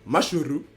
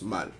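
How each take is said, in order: First: The name is said in three syllables, Japanese style. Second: The name is said in one short syllable, French style. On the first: "En japonais, ça se prononce Mashuru" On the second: "Et en français, ça se prononce mal"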